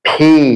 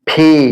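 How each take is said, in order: No difference in how they are said.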